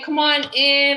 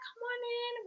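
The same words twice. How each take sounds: First: Said in a plainer voice for older kids. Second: Said in a sweet voice for a little kid.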